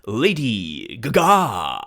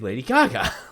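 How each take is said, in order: First: The stress is not on the first syllable. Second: The stress is on the first syllable. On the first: People from the future misread the name. The speaker calls it wrong. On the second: The name is read the usual way. The speaker calls it right.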